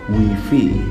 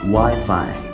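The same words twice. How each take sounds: First: The vowels sound like 'ee'. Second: The vowels sound like 'eye'. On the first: The speaker calls it wrong. "instead of E" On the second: The speaker calls it right. "The vowels of I in this word are pronounced I"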